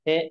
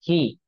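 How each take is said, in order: First: The vowel is a mid 'ay' sound. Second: The vowel is a long 'ee' sound. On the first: The speaker calls it wrong. "ये अक्सर लोग मजहूल पढ़ते हैं। मजहूल means wrong." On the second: The speaker calls it right. "ये है नहीं होना चाहिए, बल्कि यहाँ क्या होना है"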